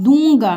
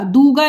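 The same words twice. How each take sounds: First: "दूंगा" as dũũgaa, nasal oo; said through nose. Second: "दूंगा" as oral dooga; the mistaken "दूंगा", no nasal oo; without nasal. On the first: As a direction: model "दूंगा" with the first vowel nasalised. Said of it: "नाक से". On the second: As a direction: say "दूंगा" with a plain oo. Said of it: "दूंगा नहीं". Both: Shown as a demonstration.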